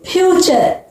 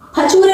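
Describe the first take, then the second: First: It ends with an 'er' sound. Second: It ends with a 'ray' sound. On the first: The speaker calls it right. "इसको क्या बोलोगे?" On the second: The speaker calls it wrong. "फचूरे नहीं पढ़ेंगे"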